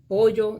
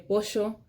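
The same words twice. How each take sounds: First: The middle consonant is a 'y' sound. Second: The middle consonant is a 'sh'-like sound. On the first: "instead of saying pollo" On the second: "they would say pollo"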